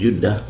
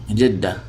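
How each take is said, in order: First: The first vowel is a u sound. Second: The first vowel is an i sound. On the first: The speaker calls it wrong. "We don't pronounce that with Judda" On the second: The speaker calls it right. "so Jidda"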